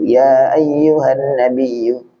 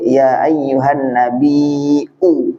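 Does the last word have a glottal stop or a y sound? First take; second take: y sound; glottal stop. First: The last word has a y sound before the end. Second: The last word has a glottal stop before the end. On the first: This is how the Quraysh tribe said it. "kalau orang Quraisy, mereka susah itu ngomong hamzah" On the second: This is the original form of the word. "maka aslinya kalau dia"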